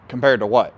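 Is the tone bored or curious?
bored. It is said in a flat, bored monotone. The speaker is annoyed and dismissive. The speaker calls it wrong. "You could say this in a monotone, boring"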